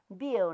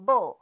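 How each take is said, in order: First: The word is read with the sound 'miau'. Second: The word is read with the sound 'bo'. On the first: The speaker calls it wrong. "这个音实在是有读走去啦" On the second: The speaker calls it right. "咱真正侪人读母"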